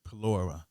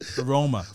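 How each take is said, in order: First: The word is said with an L sound. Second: The word is said without an L sound. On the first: The speaker calls it wrong. "I just said it wrong" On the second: The speaker calls it right. "the L is silent"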